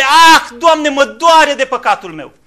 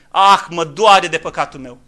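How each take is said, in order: First: Loud, slow anguished lament; loud lamenting cry of repentance; wail of grief. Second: Slow, subdued sigh of remorse; a held-back sorrowful confession; preacher voicing a sinner's quiet regret, softly. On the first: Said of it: "Un strigă de jale". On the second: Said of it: "să zică omul". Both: Shown as a demonstration.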